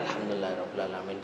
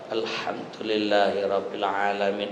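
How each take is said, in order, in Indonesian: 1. Hampir tidak bersuara, hanya bibir yang bergerak. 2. Diucapkan dengan keras dan artikulasinya jelas.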